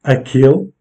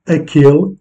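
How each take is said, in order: First: "Aquele" with its middle syllable stressed, rising at the end; tonic stress demo. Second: "Aquele" stressed on the middle syllable, rising at the end; tonic stress demo. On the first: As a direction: model "Aquele" carefully for students. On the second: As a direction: show the stress in "Aquele" clearly. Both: Shown as a demonstration. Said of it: "comme dans les cas suivants".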